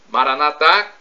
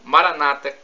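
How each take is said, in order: First: The stress is on the last syllable. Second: The stress is on the second-to-last syllable. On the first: This is how Catholics say it. "com a tônica na última sílaba, como dizemos nós católicos" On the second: This is how evangelicals or Protestants say it. "como dizem nossos irmãos separados ... com a tônica na penúltima sílaba"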